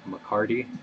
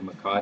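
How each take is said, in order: First: It sounds like an English surname, McCarty. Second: It keeps the Spanish vowels, ma-KA-tee. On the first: The word has been changed to sound English. The speaker calls it wrong. "they call this a McCarty" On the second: The word keeps its original Spanish form. The speaker calls it right. "better to show respect for the original language"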